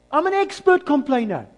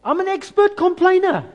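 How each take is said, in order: First: "expert" punched, loud and high; stress on expert. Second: High, loud self-mocking cry; exclaimed confession. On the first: Pastor repeats his confession to the church, stressing "expert". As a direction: lean on "expert". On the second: Pastor admits his own complaining to the congregation, loud and high. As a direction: blurt it out, half laughing at yourself. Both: Real, not acted. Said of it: "I battle with this".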